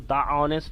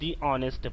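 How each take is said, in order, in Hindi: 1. 'The' को छोटी 'thuh' ध्वनि के साथ कहा जाता है। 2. 'The' को लंबी 'thee' ध्वनि के साथ कहा जाता है। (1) "हम तो द ऑनेस्ट नहीं" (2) "नहीं दी ऑनेस्ट पढ़ेंगे"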